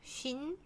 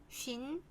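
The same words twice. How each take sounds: No difference in how they are said.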